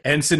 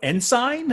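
First: The second syllable is reduced, like 'sin'. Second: The second syllable is said fully, like 'sign'. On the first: The speaker calls it right. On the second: The speaker calls it wrong.

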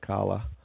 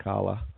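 First: The name is said with a British pronunciation. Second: The name is said with a British pronunciation.

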